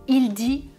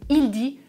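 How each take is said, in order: The two takes are said the same way.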